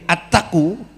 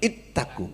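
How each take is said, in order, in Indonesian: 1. Kata ini diawali vokal 'a'. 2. Kata ini diawali vokal 'i'. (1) "attaku itu enggak tepat" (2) "yang betul ittaku"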